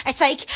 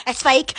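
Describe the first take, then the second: No difference in how they are said.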